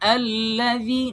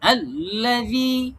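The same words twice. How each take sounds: First: The word is said smoothly without a jolt. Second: The word is said with a hard forceful jolt. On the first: The speaker calls it right. "Smoothly বলতে হবে" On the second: The speaker calls it wrong. "not الذي এরকম না"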